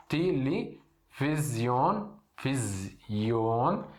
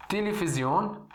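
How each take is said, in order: First: Televisão stretched very slowly as telifizion; slow Arabic pronunciation. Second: Televisão as telefizion, with f and a final on; Arabic pronunciation. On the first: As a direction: spell out televisão syllable by syllable, Arabic style. (televisão bem devagar, à árabe) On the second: (televisão pronunciado à árabe, telefizion) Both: Shown as a demonstration. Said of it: "A gente fa-, chama assim em árabe".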